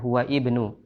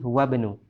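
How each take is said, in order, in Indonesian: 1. Huruf 'i' pada 'ibnu' jelas dibaca. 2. Huruf 'i' dihilangkan, menyambung ke 'bnu'. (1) "bukan huwa ibnu" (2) "langsung saja kita baca huwa banu"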